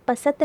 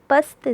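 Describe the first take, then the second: First: पसत in two syllables, "pa-sat"; full s with its vowel in पसत; wrong full-vowel reading. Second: पस्त as one syllable, "past"; no vowel after s in पस्त; light half-sounded s. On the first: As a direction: put a short vowel between s and t in पसत. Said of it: "पसत नहीं पढ़ोगे इसको". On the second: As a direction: run s straight into t in पस्त. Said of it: "से की हल्की सी आवाज़ निकलेगी". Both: Shown as a demonstration.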